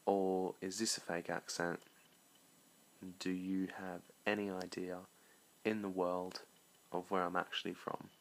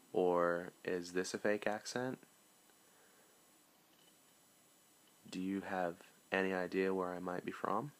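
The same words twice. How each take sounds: First: Measured English accent, questioning. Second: American accent. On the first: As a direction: ask it like someone from England. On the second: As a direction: ask it like an American. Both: Shown as a demonstration. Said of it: "But there's three accents".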